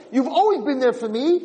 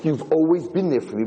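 First: Higher, lifted to a doubtful rise; grudging, hollow thanks. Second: Said in the usual way. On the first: Retold or imitated. Ungrateful man echoing his donkey without real thanks. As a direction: say it without meaning it. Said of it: "he still didn't have hakaras hatoiv". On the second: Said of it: "And he said".

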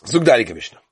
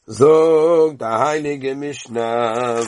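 First: Said in the usual way. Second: A long singsong prompt to start reading; slow drawn-out call. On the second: Shown as a demonstration. Teacher calling students to recite, very slow and drawn out. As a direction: stretch every word out, very slow, leaning on Zog.

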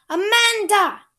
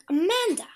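First: High, loud call, holding the name out long; loud summons. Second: Calling out. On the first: Cook shouting for Amanda to come back to the kitchen, loud call. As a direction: bellow the name down the hall to fetch her. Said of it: "Cook's voice called her back". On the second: Someone in the house calling Amanda back to work, called out. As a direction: call the name out, a little higher and louder. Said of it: "Someone was calling". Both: Acted.

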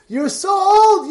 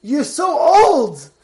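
First: Slow, higher, sharper scoff; mocking wife. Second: Slow, drawn-out scoff; mocking wife. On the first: Wife scoffing again at her old husband, higher and mocking. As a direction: push it up, more incredulous. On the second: Wife scoffing at her old husband, slow and mocking. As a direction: stretch it out, teasing him.

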